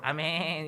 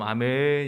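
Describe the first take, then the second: First: It is said in a bleating goat-like voice. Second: It is said in a low cow-like voice.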